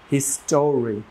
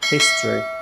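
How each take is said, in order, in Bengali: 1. মাঝের স্বরধ্বনিটি স্পষ্টভাবে উচ্চারিত হয়। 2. মাঝের স্বরধ্বনিটি বাদ যায়। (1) "ট এর পরে যে ও, সেটা আমি অ্যাড করেছি" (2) "নেটিভ ইংলিশ স্পিকাররা বলেন"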